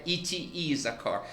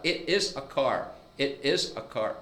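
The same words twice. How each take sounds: First: Slow "It is a car" with a short, clipped i in "It"; correct short i. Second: Slow "It is a car" with "It" stretched to a long ee; wrong, long-i version. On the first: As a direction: say "It" short and crisp. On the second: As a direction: draw out "It" like "eat". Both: Shown as a demonstration. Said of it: "Não é".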